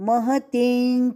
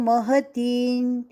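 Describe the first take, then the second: No difference in how they are said.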